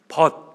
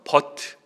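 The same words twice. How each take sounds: First: The word is pronounced smoothly and naturally. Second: The word is pronounced stiffly, letter by letter.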